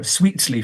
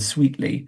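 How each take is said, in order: First: The T is fully released with a puff. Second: The T is replaced by a glottal stop. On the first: "fully releasing that T consonant" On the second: "rather than a glottal stop"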